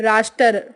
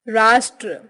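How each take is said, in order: The two takes are said the same way.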